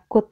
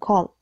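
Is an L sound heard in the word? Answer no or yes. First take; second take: no; yes. First: It is said without any L sound. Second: It is said with an audible L sound. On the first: The speaker calls it right. "Could itu dibaca could" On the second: The speaker calls it wrong. "bukan called. Soalnya banyak yang salah pengucapannya"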